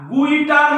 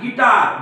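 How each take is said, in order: First: The word starts with a gw sound. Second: The word starts with a plain g sound. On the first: The speaker calls it wrong. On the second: The speaker calls it right.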